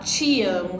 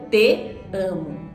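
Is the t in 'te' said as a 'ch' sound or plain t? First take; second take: ch sound; plain t. First: The t in 'te' sounds like 'ch'. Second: The t in 'te' is a plain t. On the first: This is how people actually speak in São Paulo. "sai esse ti" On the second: This is the textbook pronunciation. "o certo"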